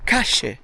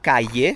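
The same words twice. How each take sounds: First: The double L sounds like a J. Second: The double L sounds like a Y.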